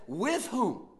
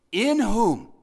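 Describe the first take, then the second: First: Said in the usual way. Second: "In" hit loud and hard, falling; stress on in. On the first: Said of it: "He could have said". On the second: Shown as a demonstration. Preacher making the congregation notice "In", loud stress. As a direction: punch the word "In" for the listeners. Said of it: "And then notice how he says it".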